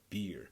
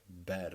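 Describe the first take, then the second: First: The vowel sounds like the vowel in ear. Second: The vowel sounds like the vowel in air. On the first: The speaker calls it wrong. "not beer" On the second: The speaker calls it right. "it should sound like bear"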